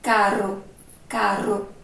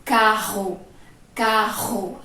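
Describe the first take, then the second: First: "caro" with the tongue tip vibrating on R; tongue-trembling R. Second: "Carro" with a strong guttural RR, tongue still; throat-vibrated strong R. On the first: Teacher showing how the tongue moves, "caro" with tapped R. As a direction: let the tongue flutter briefly on the R in "caro". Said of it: "a língua da gente, ó". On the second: Teacher showing vibration in the throat, "Carro" with strong R. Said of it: "A gente vai sentir a vibração aqui". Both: Shown as a demonstration.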